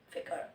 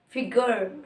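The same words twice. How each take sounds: First: It is said in a British accent. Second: It is said in an American accent. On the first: "And the British, they say figure" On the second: "In the American the accent is figure"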